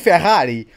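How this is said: It is said with a Portuguese accent.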